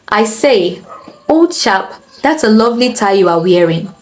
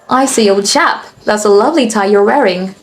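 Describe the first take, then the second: First: It is spoken in a Nigerian English accent. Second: It is spoken in an American English accent. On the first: "let me do this in a Nigerian accent" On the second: "Now for the American accent"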